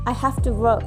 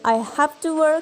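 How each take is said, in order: First: The words are contracted and run together. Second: Every word is said fully and separately. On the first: "you may use a contraction" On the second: "Instead of saying"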